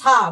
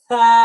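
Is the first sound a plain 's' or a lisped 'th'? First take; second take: plain s; lisped th. First: The first sound is a plain hissing 's'. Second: The first sound is a soft 'th'. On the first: The speaker calls it wrong. "বলবো আমি সা, বলবো কি?" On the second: The speaker calls it right. "যখন আমি দাঁতের আগায় জিহ্বার আগা লাগাবো"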